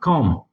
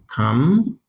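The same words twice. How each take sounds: First: The rejected come, vowel like kɔm; showing the mistaken come; wrong pronunciation. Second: One clean syllable, Come, no break; modelling the correct Come; right pronunciation. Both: Shown as a demonstration. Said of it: "not come".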